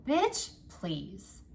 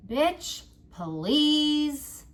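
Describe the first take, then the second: First: Said in the usual way. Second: Bitch, please said much higher and louder, stretched out; emphatic dismissal. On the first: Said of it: "A simple". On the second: Shown as a demonstration. Reader urging viewers to silence the inner jerk, loud bitch, please. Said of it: "say as many".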